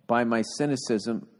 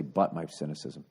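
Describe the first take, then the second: First: "by my cynicism" with "by" said as pie, slowly; reading "by". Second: "But my cynicism" with a clipped "but", low and soft; correcting to "but". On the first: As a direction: read "by" exactly as written, a clear "by". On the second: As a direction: fix it to "But", a short "but" with a t. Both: Shown as a demonstration. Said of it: "I think you want to say".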